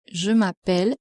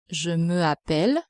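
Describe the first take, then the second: First: "je m'appelle" with me and appelle run together; French elision in "je m'appelle", M straight into appelle. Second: "je me appelle" with the vowel of me fully sounded; unelided "je me appelle", two vowels meeting; no elision. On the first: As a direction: say "je m'appelle", dropping the vowel of me. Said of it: "The elision, where you must say". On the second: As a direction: keep "me" and "appelle" apart in "je me appelle". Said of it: "instead of je me appelle". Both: Shown as a demonstration.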